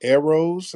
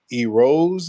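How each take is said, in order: First: "Eros" said EH-rohz, pitched high; short E pronunciation. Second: "Eros" said EE-rohz, drawn out; long E pronunciation. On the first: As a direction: say "Eros" with a first vowel as in "air". Host retries the caller's name. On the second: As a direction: say "Eros" with a first vowel as in "see". Host guesses at caller's name. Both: Real, not acted.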